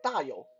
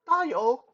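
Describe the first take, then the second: First: The name has its standard Mandarin tones. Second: The name has altered, non-native tones. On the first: It means big wealth. The speaker calls it right. "my birth name was Da Yo" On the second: The meaning of the name changes. The speaker calls it wrong. "It's going to come out like Da Yo"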